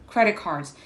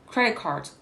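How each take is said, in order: The two takes are said the same way.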